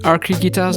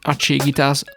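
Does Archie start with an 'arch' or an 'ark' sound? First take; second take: ark; arch. First: The 'ch' in Archie is a 'k'. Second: The 'ch' in Archie is not a 'k'.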